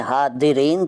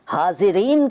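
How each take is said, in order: First: हादिरीन with d replacing z. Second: Said in the usual way. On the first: Shown as a demonstration. Teacher showing the rejected form, हादिरीन with d for z. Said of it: "तो नहीं कहते". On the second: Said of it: "हादिरीन तो नहीं कहते".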